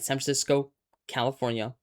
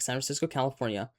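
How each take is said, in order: First: There is a pause between the two names. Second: It runs on without a pause between names. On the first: The speaker calls it wrong. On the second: The speaker calls it right.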